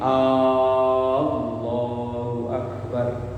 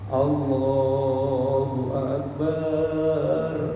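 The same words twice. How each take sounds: First: The opening vowel of the phrase is drawn out. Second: The b sound in the last word is drawn out. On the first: It asks whether God is truly great. "haram hukumnya memanjangkan huruf A" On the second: It means the bottom of a pot. "Atau memanjangkan huruf ba"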